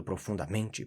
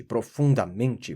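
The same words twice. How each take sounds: First: Said in the usual way. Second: "profundamente" arrastado, mais forte que o normal; ênfase crescente. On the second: A narrator's reading. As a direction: repita "profundamente" alongando com peso dramático. Repetição intensificada na narração. ("profundamente" dito devagar e com ênfase)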